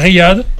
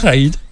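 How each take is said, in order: First: The name begins with 'ri', then 'yad'. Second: The name begins with 'ra', then 'id'. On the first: The speaker calls it right. "à Riyad" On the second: The speaker calls it wrong. "pas Raïd"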